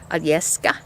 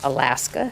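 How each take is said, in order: First: It is said with a Russian accent. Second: It is said with an American accent.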